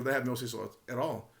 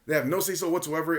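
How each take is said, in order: First: Softer, understated reply; imitated answer, played down and soft; low-key answer. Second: Mock emphatic denial; retold flat-out refusal, pressed firmly. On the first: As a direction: say it quietly as the milder alternative. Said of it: "he could have said". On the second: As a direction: imitate a firm, aggressive answer. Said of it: "just deliberately emphatic".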